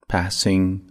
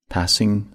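The two takes are said the same way.

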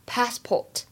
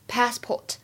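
The two takes are said the same way.

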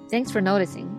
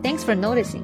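First: The tone is mocking and sarcastic. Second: The tone is sincere and grateful. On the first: The speaker implies it is obvious and annoying. "还有一种是就是讽刺的说法" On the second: The speaker is glad the change was noticed. "这是一个正面的使用方法"

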